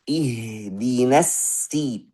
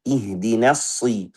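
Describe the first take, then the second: First: Slow ihdinas si with a thin sin; sin instead of sad. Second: Slow ihdinas si with a heavy sad; correct sad. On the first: Teacher shows the wrong thin sin, slow. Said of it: "Ada yang baca". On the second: Teacher models the right sad, slow. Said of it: "hanya saja yang benar". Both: Shown as a demonstration.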